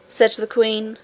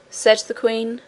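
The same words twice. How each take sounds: The two takes are said the same way.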